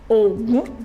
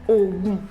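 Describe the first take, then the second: First: The tone goes from low to high. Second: Both syllables are on a low tone. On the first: "that's a god in Yoruba land. Ogun, Domi" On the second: "Do, Do"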